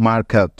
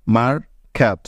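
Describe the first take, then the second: First: Said in the usual way. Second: "market" broken in two with a pause before the last syllable; split into syllables. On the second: Shown as a demonstration. Teacher dividing the word in two for learners, "market" split by a pause. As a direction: say "market" as two separate beats. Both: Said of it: "দুই ভাগে ভাগ করে বলছি".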